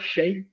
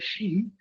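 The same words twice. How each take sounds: First: The name is said as one blended syllable. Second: The name is said as two syllables, she-in. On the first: This is how most people in Brazil say it. "na prática e no Brasil, todo mundo fala Shein" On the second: This is the original form of the name. "originalmente o nome certo é Shein"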